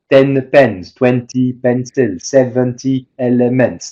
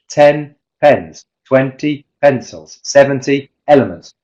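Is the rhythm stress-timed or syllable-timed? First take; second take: syllable-timed; stress-timed. First: Every syllable gets roughly equal time and weight. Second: Stressed syllables are evenly spaced, others squeezed between. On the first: The speaker calls it wrong. "a French person will want to say ... This is your syllable timing" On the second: The speaker calls it right. "English, ... Stress timed, the syllables in between just have to fit"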